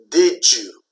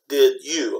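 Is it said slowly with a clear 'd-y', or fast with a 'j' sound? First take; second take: j sound; clear d-y. First: The words are said fast with the 'd' and 'y' merged into a 'j' sound. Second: The words are said slowly with a separate 'd' and 'y' sound. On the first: "like a J sound" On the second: "When you say slowly"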